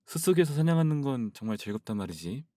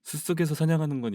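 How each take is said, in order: First: 숲속에서 with ㅅ softened into a lisp; Rudy's lisp. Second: Said in the usual way. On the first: Acted. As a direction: lisp every ㅅ in 숲속에서 and 사냥하는. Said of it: "루디가 시옷 발음을 잘 못합니다". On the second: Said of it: "이렇게 말하잖아요".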